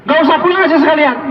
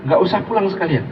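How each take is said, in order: First: High-pitched mock-angry dismissal; wife throwing husband out. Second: Said in the usual way. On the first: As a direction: send him packing, pitched up. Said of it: "Kalau istri ngusir sambil bilang".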